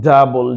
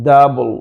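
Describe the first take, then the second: Both takes have the same delivery.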